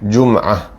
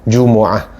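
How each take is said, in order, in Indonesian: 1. Huruf m tidak diikuti vokal. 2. Huruf m diikuti vokal u. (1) "Boleh juga dimatikan" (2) "mim tu dengan baris depan"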